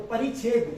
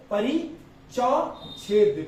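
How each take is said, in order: First: Said in the usual way. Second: Slow drawn-out परिचौछेद with चौ; wrong pronunciation. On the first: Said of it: "यहाँ पर चौ जरूर आएगा". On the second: Shown as a demonstration. Teacher showing students the wrong spelling परिचौछेद. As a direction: stretch out परिचौछेद, sounding चौ. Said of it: "मैंने बोला परिच्छेद लिखो".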